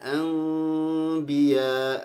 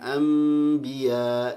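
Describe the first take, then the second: First: The nasal before b is hidden and nasalized. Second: The nasal before b is a clear m. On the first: "ada yang seperti eng, seperti ikhfa ya" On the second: "ada yang"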